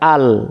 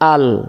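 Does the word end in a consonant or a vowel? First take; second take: consonant; consonant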